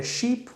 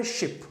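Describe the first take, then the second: First: शीप said with a long drawn ee, sheep; शीप: long ee as in English sheep; long vowel sheep. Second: शिप said with a short clipped i, ship; शिप with a quick short ee sound, like ship; शिप: short i as in English ship; short vowel ship. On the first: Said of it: "शीप में बड़ा वाल है". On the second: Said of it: "छोटा वाल है". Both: Shown as a demonstration.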